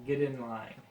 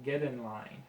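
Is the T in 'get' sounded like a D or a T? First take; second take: D; D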